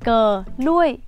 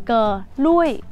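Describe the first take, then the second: The two takes are said the same way.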